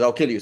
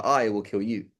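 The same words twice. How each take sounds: First: Said in the usual way. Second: I held long before the rest; weighty emphasis on I, correcting the other speaker; stress on I. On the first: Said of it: "He says". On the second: Shown as a demonstration. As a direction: lean on I, then let the rest drop. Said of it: "so rather".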